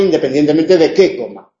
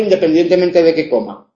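First: The word 'que' carries stress. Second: The word 'que' is unstressed. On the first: Depending on what one eats. "Según si como una cosa u otra cosa, tengo hambre" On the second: Whether or not one eats at all. "Coma o no coma, siempre tengo hambre"

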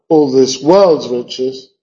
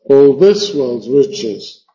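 First: The word world's is stressed, along with riches. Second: The word world's is left unstressed. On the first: The speaker calls it wrong. "worlds como sustantivo, y rich como sustantivo" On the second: The speaker calls it right. "No marcar worlds para no tener demasiados"

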